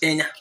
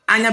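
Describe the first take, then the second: First: The word begins with an 'e' vowel. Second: The word begins with an 'a' vowel. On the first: This is the Ebonyi dialect form. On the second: This is the general dialect form.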